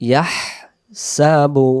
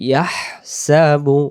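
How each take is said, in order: The two takes are said the same way.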